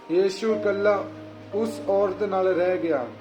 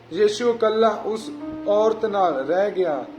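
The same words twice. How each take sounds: Both takes have the same delivery.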